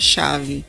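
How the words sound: The word starts with a 'sh' sound. "parecido com conosco aqui no Brasil, que é chave, mas se escreve com dois L's"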